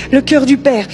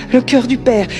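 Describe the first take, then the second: No difference in how they are said.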